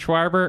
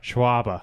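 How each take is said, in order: First: It is said in a Midwestern accent. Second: It is said in a Boston accent. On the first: "a Midwestern Schwarber" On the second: "I think the Boston one's more fun"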